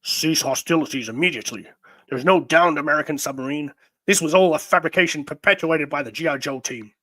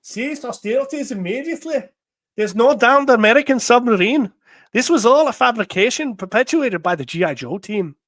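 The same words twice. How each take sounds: First: Said in the usual way. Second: Higher, louder put-on Scottish accent. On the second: Reading Destro's order to cease hostilities, Scottish accent. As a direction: read it in a lilting Scottish brogue. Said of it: "read it in a Scottish accent".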